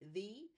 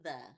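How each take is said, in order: First: The vowel is a long ee sound. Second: The vowel is a short uh sound. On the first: It follows the long vowel spelling rule. The speaker calls it wrong. "It would maybe be he, the" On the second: This is how people normally say it in speech. The speaker calls it right. "when we speak, we say the"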